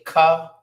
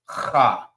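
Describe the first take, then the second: First: It starts with a hard k sound. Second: It starts with a raspy throat sound. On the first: The speaker calls it wrong. "Some people may say Ka, but that's not the correct way of pronouncing this letter" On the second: The speaker calls it right. "It's Ha ... like you hawking up some spit"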